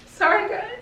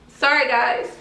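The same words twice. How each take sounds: First: Real tears breaking through the apology; crying apology. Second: Tearful apology. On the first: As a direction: voice cracking high as the tears come. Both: Real, not acted. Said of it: "I don't like crying on camera".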